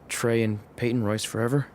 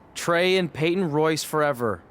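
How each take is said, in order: First: It is said quietly, at low volume. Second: It is said loudly, at higher volume.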